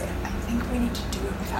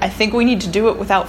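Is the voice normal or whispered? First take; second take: whispered; normal. First: The words are spoken in a whisper. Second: The words are spoken at normal volume. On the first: "I'm trying to whisper this" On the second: "You can speak at a normal volume"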